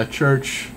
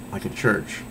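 First: Said in the usual way. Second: Whispered aside. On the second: Real, not acted. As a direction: whisper it under your breath. Repeats church, then whispers it.

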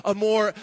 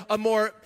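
The two takes are said the same way.

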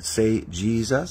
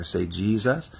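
First: "Say, 'Jesus.'" drawn out slowly, word by word; slow it down so he can follow; slow, coaching Jesus. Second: Said in the usual way. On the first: Shown as a demonstration. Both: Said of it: "So I just said".

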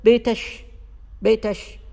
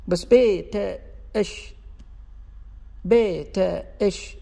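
First: بيتش with the t and the sh held apart; broken t then sh. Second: بيتش glided smoothly and slowly from t into sh. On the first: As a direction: stop after the t, then say the sh of بيتش. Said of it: "مو، مو طبيعية". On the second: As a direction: draw out بيتش in one smooth flow. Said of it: "مع سلاسة النطق تكون سليمة". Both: Shown as a demonstration.

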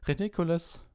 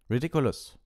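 First: High squeaked spell. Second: Loud, raised barked spell. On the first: Neville casts his spell at Snape, squeaking. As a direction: squeak it out in a much higher voice. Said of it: "quiekte Neville". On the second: Ron casts at the giant spider, barking. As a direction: bark the spell out. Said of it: "bellte Ron". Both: A narrator's reading.

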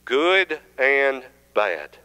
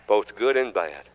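First: "Good and bad" stretched very slow; preacher leading the church's slow answer; drawn-out call and response. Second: Said in the usual way. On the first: Shown as a demonstration. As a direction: draw out "good and bad" slowly with the congregation. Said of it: "both what?".

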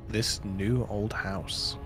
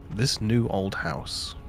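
The two takes are said the same way.

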